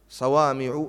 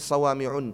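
First: The word ends without a final n sound. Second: The word ends with an added n sound. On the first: The speaker calls it right. "صوامع ممنوعة من الصرف" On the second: The speaker calls it wrong. "مش صوامع، لا يصح"

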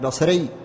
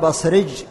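First: The word ends with a y sound. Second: The word ends with a j sound. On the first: This is the standard form of the word. "يعني بصري" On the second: This is the dialect form of the word. "فيقولون بصرج في المنسوب إلى البصرة"

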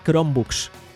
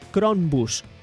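First: The word ends sounding like 'books'. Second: The word ends sounding like 'bus'. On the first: The speaker calls it right. "¿realmente a qué se referían? A Chromebooks" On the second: The speaker calls it wrong. "te hablaban la pronunciación de mierda"

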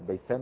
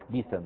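First: The first syllable has an 'a' vowel. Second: The first syllable has an 'i' vowel.

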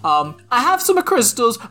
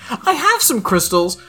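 First: It is read in an exaggerated Italian accent. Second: It is read in the speaker's normal accent.

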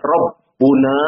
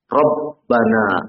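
First: The vowel after 'rabb' is u. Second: The vowel after 'rabb' is a. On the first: The speaker calls it wrong. "Tidak dibaca Rabbuna" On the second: The speaker calls it right. "tapi dibaca Rabbana, mansub"

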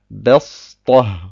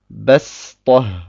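First: The s is a heavy, emphatic Sad sound. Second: The s is a plain, light Sin sound. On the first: The speaker calls it wrong. "und nicht Bestoh" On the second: The speaker calls it right. "sondern Bestoh. Ich spreche ein Sin aus"

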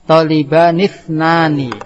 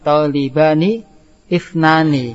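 First: The two words run together as one. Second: The two words are said separately.

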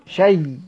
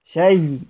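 The two takes are said the same way.

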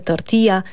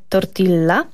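First: The double L sounds like a Y. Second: The double L sounds like an L. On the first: The speaker calls it right. "Więc mówimy tortilla" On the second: The speaker calls it wrong. "nie tortilla"

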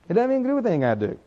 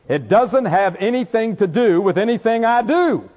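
First: It is said fast. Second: It is said slowly.

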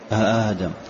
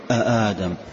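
No difference in how they are said.

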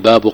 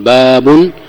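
First: The word ends without an added n sound. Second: The word ends with an added n sound. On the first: The word is tied to the phrase that follows. "إذا لم يقل باب قول الله" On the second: The word stands alone as a heading. "تنون تقول باب"

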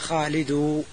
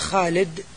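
First: It ends with a full u vowel. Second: It ends on the consonant with no vowel. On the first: "أو بالضم بدون تنوين، هذا ضم خالص" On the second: "سكون خالص"

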